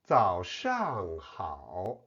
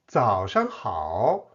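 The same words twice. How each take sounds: First: The middle syllable keeps its full falling tone. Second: The middle syllable is light with a neutral tone.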